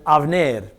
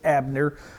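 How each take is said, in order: First: The middle consonant is a v sound. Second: The middle consonant is a b sound. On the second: This is how English speakers say the name. "We would pronounce it in English Abner"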